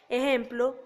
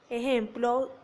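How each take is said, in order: Both takes have the same delivery.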